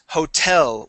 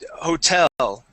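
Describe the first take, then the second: First: The stress is on the last syllable. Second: The stress is on the first syllable. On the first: The speaker calls it right. "with the accent on the end of the word" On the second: The speaker calls it wrong. "They put the accent at the very beginning of the word"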